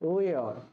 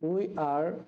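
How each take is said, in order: First: The words are joined into one short syllable. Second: Both words are said fully and separately. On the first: "এর contraction হয়ে যাবে" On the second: "ইংরেজি হয়ে যাবে তোমার we are"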